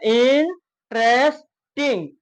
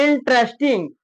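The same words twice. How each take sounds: First: "इंटरेस्टिंग" very slowly as in, tres, ting; split into syllables. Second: Said in the usual way. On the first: Shown as a demonstration. Teacher demonstrating three syllables, "इंटरेस्टिंग" slowly split apart. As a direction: break "इंटरेस्टिंग" into three drawn-out beats with gaps. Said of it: "उसमें भी तीन syllable है".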